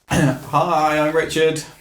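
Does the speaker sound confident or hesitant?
hesitant. It is said in a hesitant, unsure way.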